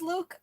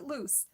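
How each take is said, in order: First: The name ends with a k sound. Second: The name ends with an s sound. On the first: The speaker calls it right. "is it still pronounced Luke" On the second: The speaker calls it wrong. "or is it loose?"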